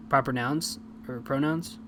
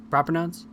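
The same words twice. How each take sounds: First: Said in the usual way. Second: Rising, unsure "Proper nouns?"; doubting question. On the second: Shown as a demonstration. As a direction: question your own words mid-thought. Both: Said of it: "I don't even know what I'm talking about".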